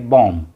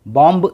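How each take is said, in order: First: The word ends on the m, no b. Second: A b sound is pronounced after the m. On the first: The speaker calls it right. "बॉम्ब पढ़ेंगे" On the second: The speaker calls it wrong. "बॉम्ब नहीं पढ़ेंगे, बी की आवाज़ नहीं आएगी"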